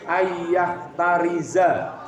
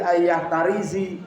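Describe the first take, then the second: First: The last word ends with an a vowel. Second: The last word ends with an i vowel. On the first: The speaker calls it right. "harus dibaca ayyah tariza" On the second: The speaker calls it wrong. "gak boleh ya"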